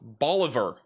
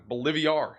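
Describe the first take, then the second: First: The name is said with three syllables. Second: The name is said with four syllables. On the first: This is the standard pronunciation. The speaker calls it wrong. "Bolivar sounds like boring" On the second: This is a playful inside-joke pronunciation. The speaker calls it right. "It sounds fancy"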